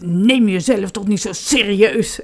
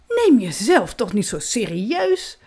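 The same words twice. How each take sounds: First: It is said in an angry tone. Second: It is said in a proud tone. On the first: "dat heel boos zeggen" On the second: "Of heel trots"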